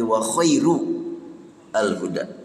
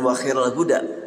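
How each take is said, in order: First: The word khair is read with a distinct -u ending. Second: The word khair is not read with a distinct -u ending. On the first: The best guidance is guidance explaining the Book, given through the Messenger. The speaker calls it right. "kalau pakai dibaca wa khairu" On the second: The best guidance is the Messenger's guidance. The speaker calls it wrong. "bukan wa khairul huda"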